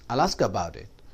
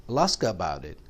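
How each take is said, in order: Both takes have the same delivery.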